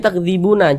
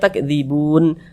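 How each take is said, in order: First: The word ends with an added vowel a. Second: The word ends on a clipped final n. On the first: The speaker calls it wrong. "Jangan dibaca takdzibuna" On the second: The speaker calls it right. "kita baca takdzibun"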